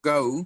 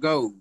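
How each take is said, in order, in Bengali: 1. স্বরধ্বনিটি 'a' থেকে 'u'-এর দিকে গড়িয়ে যায়। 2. স্বরধ্বনিটি 'a' থেকে 'u'-এর দিকে গড়িয়ে যায়।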